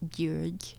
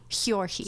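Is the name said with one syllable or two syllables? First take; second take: one; two. First: The name has one syllable, with no final vowel. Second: The name has two syllables, ending in 'ee'. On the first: The speaker calls it right. "the O is it's Jurg" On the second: The speaker calls it wrong. "they were pronouncing it Hjorge? Hjorhi? ... that's not right"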